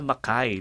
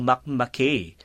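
First: 'Mackay' ending like 'eye', softly; correct local pronunciation. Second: 'Makmakay' ending in 'kay' as in 'okay'; mistaken first reading. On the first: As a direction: say 'Mackay' as muh-KAI. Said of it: "yung pala". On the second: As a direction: misread it as mak-KAY, American style. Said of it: "nung una kong nabasa yan". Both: Shown as a demonstration.

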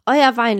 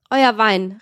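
First: Loud, scornful repeat; calling out. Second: Loud, scornful call. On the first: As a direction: shout it out again. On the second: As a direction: shout it across the table. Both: A narrator's reading. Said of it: "rief O'Malley".

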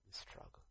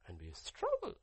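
First: Breathless whispered echo. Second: Said in the usual way. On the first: Acted. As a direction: lean in and whisper it.

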